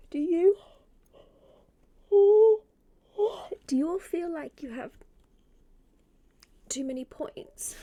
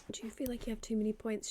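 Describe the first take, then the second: First: High, loud question with long gaps; exaggerated questioning. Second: Said in the usual way. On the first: Real, not acted. Streamer polls chat on spare points, exaggerated questioning. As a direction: pitch it up and break it into pieces.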